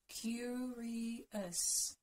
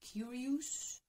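First: The ending has a short, weak 'us' sound. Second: The ending has a full 'oo' vowel. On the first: The speaker calls it right. "Curious. Us" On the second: The speaker calls it wrong. "don't say curious. Ooh, it's not ooh"

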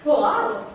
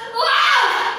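First: It is said in a happy way. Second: It is said in an angry way.

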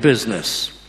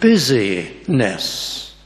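First: The word is said with two syllables. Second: The word is said with three syllables. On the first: It refers to commerce. The speaker calls it wrong. "if only we pronounce it in the right way" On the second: It refers to eagerness and zeal. The speaker calls it right. "But if we pronounce it differently"

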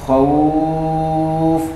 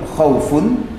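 First: The word ends on a lengthened 'khauf' sound. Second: The word ends with a short nasal 'un'. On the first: The reading stops at this word. "khaufun menjadi khauf panjang" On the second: The reading continues without stopping. "khaufun jika dibaca hidup"

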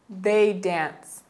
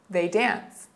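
First: It is said at a slower pace. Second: It is said at a faster pace.

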